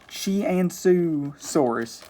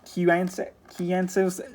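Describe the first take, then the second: First: The name starts with a ch sound. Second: The name starts with a hard K sound. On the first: The speaker calls it right. "I figured out how to finally pronounce this species" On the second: The speaker calls it wrong. "I've been saying it more with that Q, like Q"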